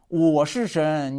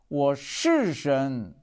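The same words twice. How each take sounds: First: The stress falls on the word 我. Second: The stress falls on the word 是. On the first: Humans are not God, only the speaker is. "强调我" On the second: It is truly so and should not be doubted. "我真的是神，不要怀疑"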